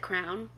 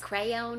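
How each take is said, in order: First: The word is said as one syllable, like crown. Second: The word is said as two syllables, cray-on. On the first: "I say this wrong too, but you color with a crown" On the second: "Like crayon or something"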